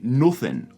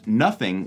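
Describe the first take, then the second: First: The vowel is a rounded Northern 'oo' sound. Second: The vowel is an open, non-Northern 'uh' sound.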